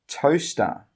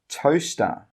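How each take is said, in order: No difference in how they are said.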